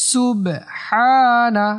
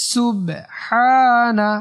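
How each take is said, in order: The two takes are said the same way.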